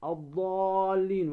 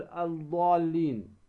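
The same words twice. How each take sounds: First: الضالين slowly, with doubled D and long A; L merged into the D of الضالين; lam assimilated. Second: الضالين with an audible L before the D; article's L kept separate in الضالين; lam wrongly sounded. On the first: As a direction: say الضالين as ad-daaallin, drawn out. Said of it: "اللام الشمسية ندغمها". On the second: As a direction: say الضالين as al-daallin. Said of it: "ولا تقل". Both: Shown as a demonstration.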